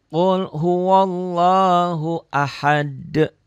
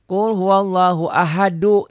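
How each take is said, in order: First: The last word stops on a consonant, cut off. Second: The last word ends in a linking vowel 'du'. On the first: The verse is read on its own, as written. "dibaca normal, dibaca apa adanya" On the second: The verse is joined to the next one. "Ini dibaca satu jadi du"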